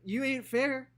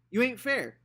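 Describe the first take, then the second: First: High, loud whiny protest; childish protest. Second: High, loud repeated protest; childish protest. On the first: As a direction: cry out that it's unfair. Scout protesting to uncle. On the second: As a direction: press the complaint harder. Scout repeating her protest. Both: Acted.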